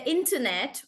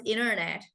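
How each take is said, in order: First: Internet with a clear T after the N; British T. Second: Internet as "innernet", first T dropped; American rolled T. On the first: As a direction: sound the first T in internet. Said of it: "internet also becomes internet for American". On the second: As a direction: let the first T in internet vanish into the N. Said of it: "also becomes internet for American". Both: Shown as a demonstration.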